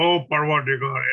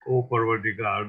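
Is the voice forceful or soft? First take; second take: forceful; soft. First: It is said loudly and forcefully. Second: It is said softly and gently. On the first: "we all like a bombastic voice, you know, oh Parvatigar, and very, very, very, very forceful voice" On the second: "recited the prayer in so-called decent manner"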